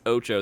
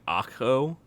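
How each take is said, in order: First: The name is pronounced as Ocho. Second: The name is pronounced as Akho. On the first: The speaker calls it right. "it's Ocho" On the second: The speaker calls it wrong. "I've had people pronounce it like Akho"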